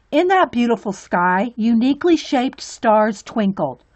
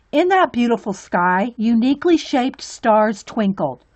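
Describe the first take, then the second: No difference in how they are said.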